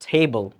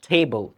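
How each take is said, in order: Both takes have the same delivery.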